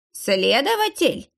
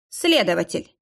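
First: Slow, high alarmed echo; slow, high alarmed echo of the word; alarmed question. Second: Said in the usual way. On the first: A narrator's reading. Old man echoes in alarm.

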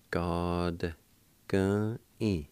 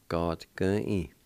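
First: Each syllable held long and set apart; syllable-by-syllable demo. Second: Said in the usual way. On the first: Shown as a demonstration. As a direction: say it slowly, one piece at a time. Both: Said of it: "like this".

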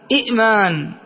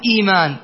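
First: إئمان split at the vowelless second hamza; short i, glottal catch, then the rest of إئمان; original two-hamza form. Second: إيمان with a long smooth ii, no glottal stop; hamza turned ya. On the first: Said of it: "الثانية أيضًا ساكنة". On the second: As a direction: run through إيمان on a long first vowel. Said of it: "أبدلها ياء فأقول". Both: Shown as a demonstration.

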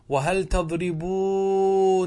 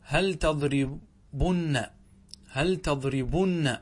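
First: "تضربونن" with long oo and every n sounded; emphatic slow demo of "تضربونن", ending -oonanna; original form. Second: "تضربن" with short u and doubled n; syllable-by-syllable demo of "تضربن", short u; resulting form. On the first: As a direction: draw out "تضربونن" loudly as tadribooo-nanna. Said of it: "هذا أصله". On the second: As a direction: say "تضربن" very slowly, broken before -bunna. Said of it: "فصار". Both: Shown as a demonstration.

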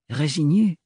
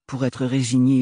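First: « Résignée » repris en écho, montée interrogative; répète « Résignée » comme une question; mot repris. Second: Said in the usual way. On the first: A narrator's reading. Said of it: "écho intérieur du mot". (« Résignée » dit en montant, pensif) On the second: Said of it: "reprise narrative".

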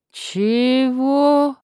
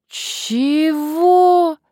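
First: Astonished. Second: Exasperated. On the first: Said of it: "удивлённо вытаращил на неё глаза". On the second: Man's third baffled reply. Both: Acted.

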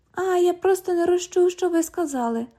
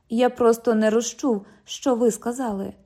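First: High, sing-song copy of the cop; mocking mimicry. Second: Said in the usual way. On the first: London parrots the cop's excuse, high and sing-song. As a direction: parrot him high to annoy him.

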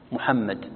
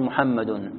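First: محمد stopped on a silent final dal; pausal ending. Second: محمد with its case ending -un sounded, muhammadun; connected ending. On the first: Teacher showing a stop on the word, pausal ending. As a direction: say محمد ending on a bare d, no case vowel. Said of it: "إذا وقفت، إذا وصلت تقول". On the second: Teacher showing the word run on, connected ending. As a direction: say محمد as muhammadun, the final vowel voiced. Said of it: "إذا وصلت تقول". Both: Shown as a demonstration.

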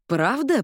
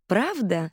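First: Delighted, pitched-up question; light up with joy; beaming. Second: Through gritted teeth. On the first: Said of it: "просиял он". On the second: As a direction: hold the anger back behind your teeth. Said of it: "сквозь зубы переспросила Уинифред". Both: A narrator's reading.

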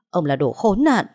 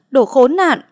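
First: Loud bitter insult, still held back; mother cursing the kidnapper; angry insult. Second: "đồ khốn nạn" screamed much higher and louder; mother loses control and screams; screaming insult. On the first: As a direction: spit out "đồ khốn nạn" with anger. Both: Acted. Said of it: "Mẹ anh thấy vậy mới hét lên".

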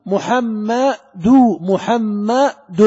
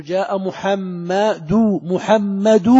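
First: محمد very slowly, "du" then closing in "dun"; adding a silent nun. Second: محمد drawn out slowly, ending in a long "du"; damma without nun. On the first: Teacher showing students how nun is added, محمد becoming "muhamma-dun". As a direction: stretch محمد syllable by syllable until the final n sounds. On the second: Teacher showing the word before adding nun, محمد ending in bare "-du". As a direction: stretch محمد to an open "-du", no n. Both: Shown as a demonstration. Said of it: "ثم ضع نون ساكنة".

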